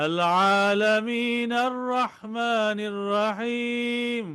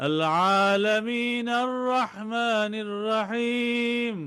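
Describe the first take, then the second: The two takes are said the same way.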